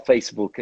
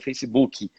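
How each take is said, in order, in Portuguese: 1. A palavra termina em consoante k final. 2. A palavra termina com a vogal extra ee. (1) "A gente não fala" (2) "a gente fala ... com Y no fim"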